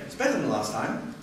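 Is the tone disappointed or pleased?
pleased. The voice sounds warm and pleased. The student feels their progress is welcomed. The speaker calls it right.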